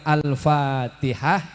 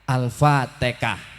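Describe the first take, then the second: First: It is said with standard Arabic pronunciation. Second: It is said with a Javanese accent.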